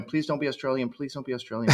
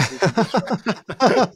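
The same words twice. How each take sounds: First: Soft, hushed mock plea; pleading murmur. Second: Mock desperate plea. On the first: Podcast guest retelling hearing a new band, hushed plea. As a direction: mutter a small hoping prayer under the breath. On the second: Guest retelling his dread about Australian bands, rising mock wail. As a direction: let it climb into a hammed-up cry. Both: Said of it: "And I caught myself going".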